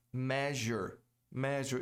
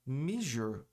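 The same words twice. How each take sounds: First: "Measure" with the E of pleasure, MEZH-er; "Measure" rhymes with pleasure; correct English measure. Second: "measure" said MEE-zhur, vowel like "i"; learner's "measure" with a long ee; wrong measure. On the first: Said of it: "Igual a pleasure". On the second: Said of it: "Muita gente pronuncia como". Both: Shown as a demonstration.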